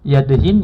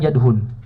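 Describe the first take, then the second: First: The last syllable has the vowel i. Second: The last syllable has the vowel u. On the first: "bisa dibaca tiga" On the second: "bisa dibaca tiga"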